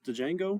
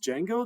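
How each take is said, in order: First: The D at the start is sounded. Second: The D at the start is silent.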